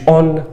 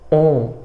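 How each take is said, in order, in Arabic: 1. الحركة فموية، مع صوت n عادي. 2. الحركة أنفية، بدون صوت n. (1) "مش on" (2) "بص بص بص on"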